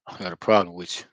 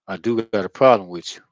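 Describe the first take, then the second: First: Said in the usual way. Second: Louder, leaning hard on problem; emphatic. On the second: Real, not acted. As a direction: say "problem" firm and loud, confronting. Calls out someone he has issues with.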